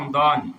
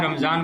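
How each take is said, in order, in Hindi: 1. बीच का व्यंजन d की आवाज़ है। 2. बीच का व्यंजन z की आवाज़ है। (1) "जबकि क्या रमदान" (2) "रमजान बोलते हैं"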